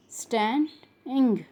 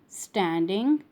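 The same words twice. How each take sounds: First: "Standing" broken into stand, ing; split syllables. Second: Said in the usual way. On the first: Shown as a demonstration. Teacher showing the ing sound, word split in syllables. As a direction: pause before the ending of "Standing". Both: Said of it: "ing sound".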